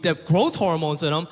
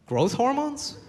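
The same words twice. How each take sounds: First: Said in the usual way. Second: High, disbelieving question; can't believe what he just heard; incredulous. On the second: Retold or imitated. Disbelieving reply to his friend's health lecture.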